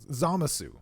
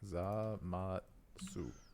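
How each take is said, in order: First: No t sound comes before the final su. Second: A t sound comes before the final su. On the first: The speaker calls it right. "Check this out" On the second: The speaker calls it wrong. "I threw a T in there"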